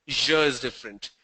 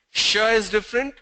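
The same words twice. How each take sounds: First: "zh" voiced as in pleasure, tune falling; voiced ZH, closing the contrast low; zh contrast demo. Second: "Sh" voiceless as in shallow, tune rising; unvoiced SH, pitched up for contrast; sh contrast demo. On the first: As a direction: say "zh" buzzed, as in measure, pitched down. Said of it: "Zh is pleasure". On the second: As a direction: say "Sh" as in brush, lifted. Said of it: "Sh is shallow". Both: Shown as a demonstration.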